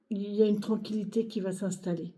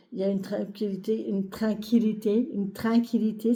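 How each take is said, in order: First: Said in the usual way. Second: Slipping into a Québécois accent on tranquillité. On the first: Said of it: "Je sais pas pourquoi j'ai pris cet accent". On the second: Real, not acted. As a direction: say "tranquillité" with a Quebec twang, first vowel turned nasal "train". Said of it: "C'est quoi cet accent, euh, qui me vient?". (accent québécois involontaire sur « tranquillité »)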